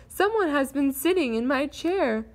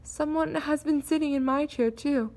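First: Father Bear's mock shout; mildly raised bear voice, pitched up; understated shout from a big bear; rough bass shout. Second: Mother Bear's mild fright; lightly hushed, voiced rather than whispered; a touch of timid worry; soft frightened whisper. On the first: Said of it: "he shouted in his rough bass, bass voice". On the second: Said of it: "whispered in her soft, frightened voice". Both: A narrator's reading.

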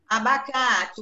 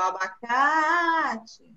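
First: Said in the usual way. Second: "abacate" drawn out slowly on abaCAAAte; stress on CA. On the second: Shown as a demonstration. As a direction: stretch the strong CA in "abacate" for a pupil. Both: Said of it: "a sílaba mais forte".

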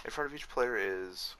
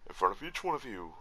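First: Said in the usual way. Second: A light, half-committed voice impression; tentative go at mimicking someone's voice; Mick. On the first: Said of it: "nah, fuck it". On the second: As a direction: try a little character voice, rising then dropping mid-phrase. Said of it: "doing my best little Mick voice".

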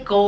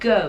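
First: Teacher showing the wrong go; wrong pronunciation. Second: Teacher modelling the right go; demonstrated pronunciation. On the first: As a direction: go said as a plain Thai โก without the w glide. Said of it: "ไม่ใช่ go". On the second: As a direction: go said with a small w glide at the end. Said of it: "ใส่วอแหวนลงไปนิดนึง go". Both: Shown as a demonstration.

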